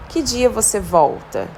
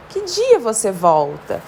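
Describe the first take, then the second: First: Said in the usual way. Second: Slow questioning tune peaking on "dia"; question intonation. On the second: Shown as a demonstration. Teacher showing students how a question sounds, questioning intonation. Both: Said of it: "Precisa de uma entonação específica".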